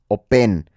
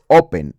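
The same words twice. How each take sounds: First: The stress is on the second syllable. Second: The stress is on the first syllable. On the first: The speaker calls it wrong. "no es open" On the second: The speaker calls it right. "la sílaba fuerte está en la O. Es open"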